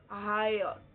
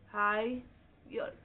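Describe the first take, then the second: First: Said in the usual way. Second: higher drawn out very slowly with a rising end. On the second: Shown as a demonstration. Teacher to class, very slow rising model word. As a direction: stretch higher and lift at the end. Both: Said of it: "अब देखो higher".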